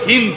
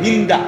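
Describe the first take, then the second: First: The name ends on the final 'd' consonant. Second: The name ends with an added 'a' vowel. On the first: The speaker calls it right. "মূলত হলো হিন্দ" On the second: The speaker calls it wrong. "আমাদের দেশের উচ্চারণে বলে হিন্দা"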